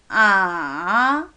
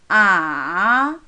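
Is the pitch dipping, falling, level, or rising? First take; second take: dipping; dipping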